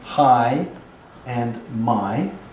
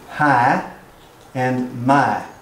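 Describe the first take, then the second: First: It is said in a standard American accent. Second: It is said in a Southern US accent. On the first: "standard American" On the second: "In my native dialect"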